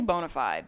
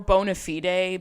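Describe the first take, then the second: First: It is said with an ordinary, everyday pronunciation. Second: It is said with a fancy, Latin-style pronunciation. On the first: The speaker talks like everyone else. The speaker calls it right. "like an actual person" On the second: The speaker is trying to sound sophisticated. The speaker calls it wrong. "because technically it's Latin and that's how you would say it"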